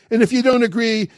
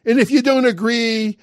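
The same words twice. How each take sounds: The two takes are said the same way.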